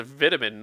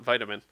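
First: VITAMIN with short i, as VIT-amin; British pronunciation of vitamin. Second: VITAMIN with long i, as VITE-amin; American pronunciation of vitamin. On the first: Insisting on the only right way, short-i vitamin. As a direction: say "vitamin" with first syllable like "bit". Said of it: "it's the only way to say it". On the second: Showing the rejected version, long-i vitamin. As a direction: say "vitamin" with first syllable like "bite". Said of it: "not vitamin". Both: Shown as a demonstration.

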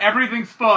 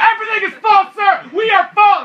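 First: Said in the usual way. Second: Very high, strained-up mock shout; loud, high-pitched clerk losing it; yelling. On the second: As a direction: yell at a customer as if at breaking point. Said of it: "why are you yelling".

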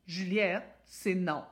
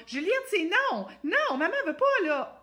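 First: Firm calm voice. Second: High, loud, pleading little voice; small high voice. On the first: Mother setting a calm limit, firm and steady. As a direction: say no firmly without anger. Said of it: "Écoutez mon thème de voix". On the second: Mother pleading with Juliette, high and shrill-light. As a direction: squeak the no like a pushover. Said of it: "J'ai pas une petite voix claire". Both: Shown as a demonstration.

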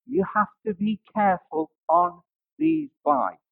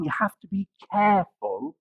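First: Insist, hitting have; the word have pressed and falling; stress on have. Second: Careful leaned on with a lift; the word careful pressed and rising; stress on careful. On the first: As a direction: have punched with a falling line. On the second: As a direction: warn them, hitting careful. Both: Retold or imitated. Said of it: "he kept re-emphasizing".

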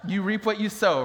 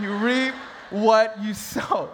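First: Said in the usual way. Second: Slow, spaced-out "you reap what you sow"; deliberate emphasis. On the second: Shown as a demonstration. Preacher driving home "you reap what you sow", slow emphasis. Same saying repeated for emphasis.

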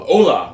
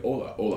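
First: Emphatic, lifted "hola"; tone demo. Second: "Hola, hola" kept down in pitch; tone demo. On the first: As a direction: hit "hola" with a loud, raised tone. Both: Shown as a demonstration. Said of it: "you can still have different tones".

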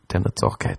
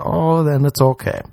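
First: Unvoiced whisper of the same line; whispered repeat. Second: Said in the usual way. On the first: Shown as a demonstration. Host whispering the loophole to listeners. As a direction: breathe it as a secret.

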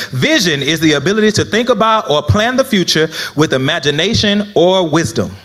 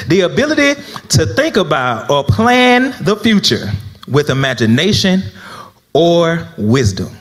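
First: Said in the usual way. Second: Dictation pace. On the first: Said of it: "Again, I'll repeat again". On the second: Real, not acted. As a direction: dictate it piece by piece for note-takers. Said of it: "the saints still writing. One more again".

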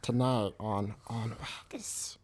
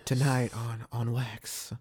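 First: Hoarse whispered creature voice; Gollum voice. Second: Breathy late-night radio host; sexy voice. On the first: Acted. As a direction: rasp it out like Gollum. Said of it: "He's about to do the Gollum voice". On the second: Shown as a demonstration. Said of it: "go ahead and give me that sexy voice".

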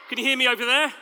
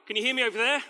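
First: Calling loudly to the back; shouting across a field. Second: Said in the usual way. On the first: Real, not acted. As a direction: raise your voice to reach the far side. There we go.

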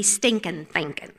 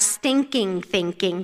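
First: "stinking thinking" as stinkin' thinkin', dropped g's, low and soft. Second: Said in the usual way. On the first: Shown as a demonstration. Speaker showing how North Carolinians say it, stinkin' thinkin'. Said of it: "So in North Carolina". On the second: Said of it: "we don't".

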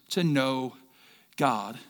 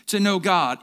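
First: Said in the usual way. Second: "know" leaned on, the key word; stress on know. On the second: Shown as a demonstration. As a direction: hit the word "know" firmly. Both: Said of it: "Emphasis on the word know".

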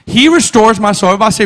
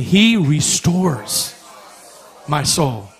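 First: Loud lead-in. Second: Leading congregation. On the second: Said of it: "everybody say this with me". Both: Shown as a demonstration.

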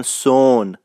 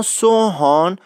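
First: سون as one long drawn-out syllable, h dropped; Isfahani pronunciation. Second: Said in the usual way. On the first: Shown as a demonstration. Guide explaining how Isfahanis say sohan, سون drawn long. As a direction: stretch the vowel slowly in سون, no "h".

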